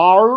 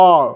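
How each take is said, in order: First: American rhotic আর, r sounded at the end. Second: British non-rhotic "ah" for আর. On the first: Teacher showing the American letter name, rhotic American. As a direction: curl an American r onto আর. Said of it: "American accent নিয়ে". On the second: Teacher showing the British letter name, British non-rhotic. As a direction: say আর the British way, r silent. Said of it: "এটা British অ্যাকসেন্টে বলে". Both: Shown as a demonstration.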